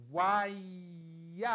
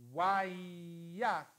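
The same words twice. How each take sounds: First: Wayakra drawn out with a rising end; Hebrew word read aloud. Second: Wayakra drawn out with a falling end; Hebrew word read again. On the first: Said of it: "e la leggiamo e poi vediamo". (wayakra con intonazione ascendente) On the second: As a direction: repeat wayakra, settling down at the end. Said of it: "di nuovo insieme". (wayakra con intonazione discendente) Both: Shown as a demonstration.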